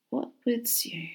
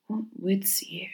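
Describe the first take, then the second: First: Slow, hushed musing; soft slow murmur. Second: Slow breathy whisper. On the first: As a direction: murmur it slowly to yourself. Stranger muses, bowed, to himself. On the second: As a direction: whisper it slowly, far away. Stranger repeats to himself. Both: Acted.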